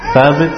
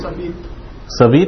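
First: The name begins with a th sound. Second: The name begins with an s sound. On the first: The speaker calls it right. "Thabit, maybe" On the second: The speaker calls it wrong. "Thabit became Sabit"

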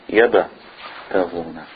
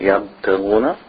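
First: The b is released with a small echoing bounce. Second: The b is closed quietly with no bounce. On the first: The speaker calls it right. "This is a resonance of the ba" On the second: The speaker calls it wrong. "Not yabtaguna"

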